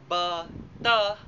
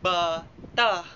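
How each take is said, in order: The two takes are said the same way.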